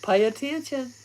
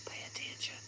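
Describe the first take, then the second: First: Said in the usual way. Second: Unvoiced hushed warning; whisper. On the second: Real, not acted. Whispering a warning to listeners during the session. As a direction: breathe it urgently without voice. Repeats the phrase, then whispers.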